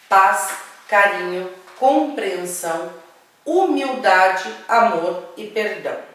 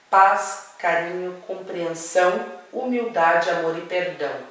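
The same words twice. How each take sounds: First: The list is spoken slowly and deliberately. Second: The list is spoken at a normal pace.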